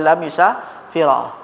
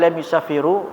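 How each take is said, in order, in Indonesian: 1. Kata terakhir berakhir dengan vokal a pendek. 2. Kata terakhir berakhir dengan vokal u pendek. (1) "enggak boleh" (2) "enggak boleh"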